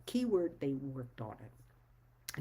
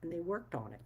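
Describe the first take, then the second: First: Keyword said slowly, then worked pressed hard; slow down and hammer worked home; slow emphatic repeat. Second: Said in the usual way. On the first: Shown as a demonstration. Telling her audience the people who respected her name really worked on it, slow emphatic.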